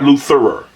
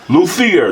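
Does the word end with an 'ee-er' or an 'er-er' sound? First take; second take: er-er; ee-er. First: The word ends with an 'er-er' sound. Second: The word ends with an 'ee-er' sound. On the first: The speaker calls it wrong. "not Lutherer" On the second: The speaker calls it right.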